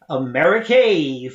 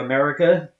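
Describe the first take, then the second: First: The word has an unusual, stilted pronunciation. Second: The word has its usual, standard pronunciation. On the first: This is how sailors said it in shanties. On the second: This is the ordinary way to say it.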